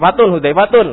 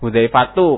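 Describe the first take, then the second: First: The name ends with a final n sound. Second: The name ends with a bare u vowel. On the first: The speaker calls it wrong. "panggil namanya salah" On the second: The speaker calls it right.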